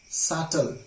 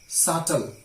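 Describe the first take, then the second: The two takes are said the same way.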